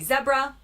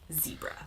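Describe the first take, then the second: First: It is said the UK way, 'zeb-ra'. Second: It is said the US way, 'zee-bra'.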